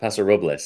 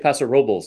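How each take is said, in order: First: Robles is said with a Spanish pronunciation. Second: Robles is said English-style, rhyming with nobles. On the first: This is how the name is said in Spanish. The speaker calls it wrong. "not Paso Robles" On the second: This is how local residents say the name. The speaker calls it right. "The locals say Paso Robles"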